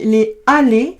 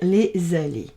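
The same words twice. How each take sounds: First: The two words are said with a break between. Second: The two words are joined with a z sound. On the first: The speaker calls it wrong. "si je dis les aller, ça coupe" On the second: The speaker calls it right. "on va faire une liaison. On va dire les aller"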